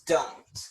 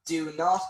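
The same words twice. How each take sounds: First: "don't" merged into one syllable; contracted form. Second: "Do not" as two separate words; full uncontracted form. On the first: Teacher showing learners the contraction, "don't" as one syllable. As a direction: run it together as "don't". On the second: Teacher showing the form before contraction, "Do not" in full. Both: Shown as a demonstration.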